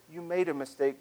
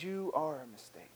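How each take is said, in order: First: Said in the usual way. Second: "You are" set against "made", softly falling; quietly condemn, weight on "You are"; shaming accusation. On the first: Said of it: "doesn't say". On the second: Shown as a demonstration. Voice of shame to the listener, softly accusing with "You are". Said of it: "but the voice that says".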